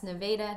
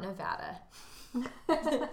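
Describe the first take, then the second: First: It is pronounced the local Missouri way. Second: It is pronounced the usual, non-local way. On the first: It names the town in Missouri. The speaker calls it right. "Yes, Nevada, not Nevada. Because it's Missouri" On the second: It names the state elsewhere. The speaker calls it wrong. "not Nevada"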